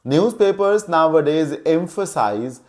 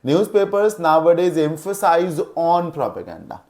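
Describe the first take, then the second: First: Newspapers nowadays emphasize read out very slowly; teacher reading an example sentence slowly. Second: Newspapers nowadays emphasize on propaganda read out very slowly; teacher reading the faulty sentence slowly; slow example read. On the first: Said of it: "जैसे देखिए". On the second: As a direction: dictate the wrong example word by word. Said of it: "कैसे?". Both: Shown as a demonstration.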